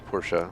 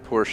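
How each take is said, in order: First: It is said with a non-American pronunciation. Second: It is said with an American pronunciation. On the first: The speaker calls it right. "and it's Porsche" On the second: The speaker calls it wrong. "they say Porsche in America"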